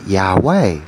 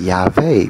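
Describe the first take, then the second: First: Yahweh said with a W, jah-WAY; Yahweh with a clear W sound as meant in the mind; intended way. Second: Yahweh said with a V, yah-VAY; Yahweh with the W turned into a V; mistaken way. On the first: Thinking Yahweh, saying it with a W, jah-WAY. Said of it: "but when it come out of the mouth". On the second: The baby's slip, Yahweh said with a V as yah-VAY. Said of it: "it was saying Yahweh because I had made a mistake". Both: Shown as a demonstration.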